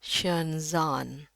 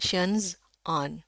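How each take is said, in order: First: "shenzhen" lié en shen-zaan, lentement; enchaîner le z sur le a long de "shenzhen"; sons liés. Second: "shenzhen" coupé en shenz, puis aan; sons séparés. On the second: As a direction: marquer une coupure après le z de "shenzhen". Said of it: "itu lebih sulit ngucapinnya". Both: Shown as a demonstration.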